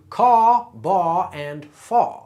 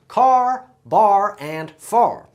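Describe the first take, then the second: First: The R sound is dropped at each word's end. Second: The R sound is pronounced at each word's end. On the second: "you could hear that R sound on the end"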